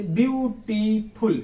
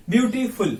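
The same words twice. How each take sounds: First: beautiful stretched into view, टी, फुल; syllable by syllable. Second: Said in the usual way. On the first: Shown as a demonstration. Teacher shows students this way of splitting, syllable by syllable. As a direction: slowly separate the three parts of beautiful. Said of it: "इस तरह से". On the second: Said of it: "एक शब्द में तीन खंड".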